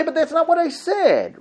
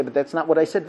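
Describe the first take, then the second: First: Raised, baffled defense; bewildered protest. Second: Said in the usual way. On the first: Retold or imitated. Husband answering his wife, baffled raised protest. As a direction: plead innocence helplessly.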